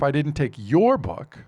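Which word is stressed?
your. The word "your" is stressed. A different person's book was taken. "I took somebody else's book"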